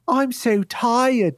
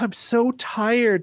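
First: It is said in a put-on Cockney-like accent. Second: It is said in the speaker's ordinary accent.

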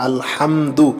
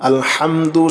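Both takes have the same delivery.

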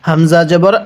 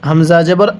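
Both takes have the same delivery.

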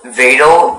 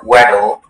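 First: The word begins with a V sound. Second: The word begins with a W sound. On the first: "It can be pronounced Vadal" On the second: "or Weddle"

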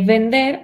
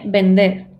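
First: The word begins with a v sound. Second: The word begins with a b sound. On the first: The speaker calls it wrong. "ne vender" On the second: The speaker calls it right. "es b"

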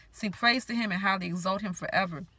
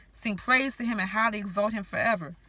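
Both takes have the same delivery.

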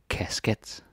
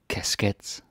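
Both takes have the same delivery.

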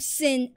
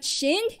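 First: It begins with s and a short i. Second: It begins with sh and a short i. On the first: The speaker calls it right. "I am Sin Asura" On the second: The speaker calls it wrong. "not Shin"

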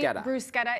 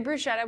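First: The middle consonant is a hard K sound. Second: The middle consonant is a soft SH sound. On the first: This is the proper way to say it. "bruschetta is the proper pronunciation" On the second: This is how many people commonly say it. "many people say bruschetta, which is... fine"

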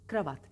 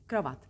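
No difference in how they are said.

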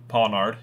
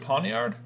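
First: The 'i' sound in the middle is dropped. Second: The 'i' sound in the middle is pronounced. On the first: "You don't pronounce the I?" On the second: "Maybe you do"

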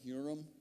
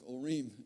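First: It is said the common way, not 'oo-reem'. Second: It is said as 'oo-reem'. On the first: "that's what most people pronounce it that way" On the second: "O-O hyphen R-E-E-M, looks like Urim to me"

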